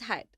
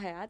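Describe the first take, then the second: First: The name sounds like 'Hyatt', with an 'eye' vowel. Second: The name sounds like 'Hayat', with an open vowel. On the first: The speaker calls it right. "it's Hyatt" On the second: The speaker calls it wrong. "it's not Hyatt"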